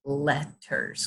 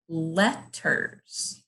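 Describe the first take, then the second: First: Said in the usual way. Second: Letters in two slow, separate beats; letters sounded out chunk by chunk; broken into syllables. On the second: Shown as a demonstration. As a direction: say letters with a gap between its syllables. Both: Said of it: "break it up into chunks".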